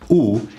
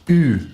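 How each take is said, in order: First: The vowel is a back rounded 'oo' sound. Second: The vowel is a front rounded 'u' sound. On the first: The speaker calls it right. "which should be pronounced ou" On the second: The speaker calls it wrong. "is often pronounced u"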